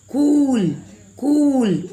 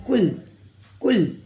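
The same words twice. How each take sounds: First: कूल stretched, high and loud; sustained, lifted oo in कूल; drawn-out long vowel. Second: कुल said quickly with a short u; quick, short-vowel कुल. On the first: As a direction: drag out the oo in कूल. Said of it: "खींच कर बोल रहे हैं". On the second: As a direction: keep the u in कुल brief. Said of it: "जल्दी में बोला जाएगा". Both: Shown as a demonstration.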